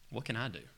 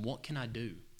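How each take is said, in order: First: It is asked as a doubtful, rhetorical question. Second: It is asked as a sincere, eager question.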